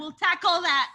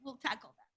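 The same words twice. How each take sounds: First: Louder. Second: Dropped to a soft murmur; quiet. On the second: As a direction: say it softly under the breath. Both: Shown as a demonstration.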